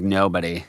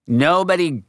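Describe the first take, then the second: First: Said in the usual way. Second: "nobody" jumps high with a falling end; emphatic nobody. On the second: Real, not acted. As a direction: hit "nobody" high and hard, then let it fall.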